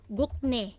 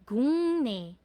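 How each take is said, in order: First: The middle consonant is a hard k stop. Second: The middle consonant is nasalized to ng. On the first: The speaker calls it wrong. "Yan ang romanization nyo" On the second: The speaker calls it right. "ang tamang reading na po, dahil sa nasalization"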